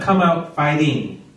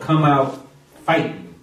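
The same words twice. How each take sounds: First: The word ends with a full 'ing' sound. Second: The word ends in 'in' without the g. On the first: The speaker calls it wrong. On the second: The speaker calls it right. "F-I-G-H-T-I-N apostrophe exclamation point"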